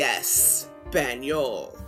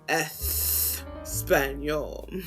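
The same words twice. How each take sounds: First: The S is a plain S. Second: The S is lisped like TH. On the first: The speaker calls it wrong. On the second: The speaker calls it right.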